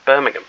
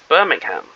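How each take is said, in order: First: Birmingham is said with a British pronunciation. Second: Birmingham is said with an American pronunciation.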